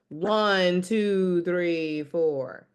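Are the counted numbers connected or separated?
connected. The numbers flow together without gaps. The speaker calls it right. "Keep it connected"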